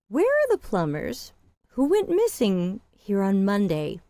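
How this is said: It sounds reserved and suspicious, with restrained energy. The speaker is wary and holding back. "a little bit more reserved, more suspicious"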